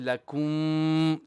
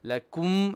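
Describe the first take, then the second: First: The final m is held long. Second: The final m is short. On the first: The speaker calls it wrong. "don't um, stretch too long on the meme. Don't say lakum" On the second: The speaker calls it right. "We say it only like a short uh, bit"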